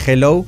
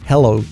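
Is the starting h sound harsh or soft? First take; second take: harsh; soft. First: The h at the start is harsh and throaty. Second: The h at the start is soft and breathy. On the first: The speaker calls it wrong. "que no es hello" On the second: The speaker calls it right. "la H suave"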